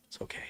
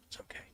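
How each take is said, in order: First: Hushed reassurance. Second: A breathy whisper, much softer; whispered reassurance. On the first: Hushing the squirrel. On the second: Streamer hushing his upset squirrel Nutty, whispering. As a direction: whisper it like settling a scared pet. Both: Acted.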